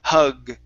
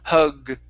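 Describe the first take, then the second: Both takes have the same delivery.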